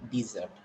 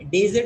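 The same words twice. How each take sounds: First: "dessert" with a long ee first vowel, dee-ZERT; dessert, the sweet. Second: "Dessert" said as DEH-zert, short first vowel, louder; desert, the sand. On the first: Teacher naming the sweet dish, dessert pronunciation. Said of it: "Dessert is different". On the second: Teacher contrasting the sandy desert, loud first syllable. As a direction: hit "Dessert" as DEZ-ert. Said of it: "Desert that having sand all over". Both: Shown as a demonstration.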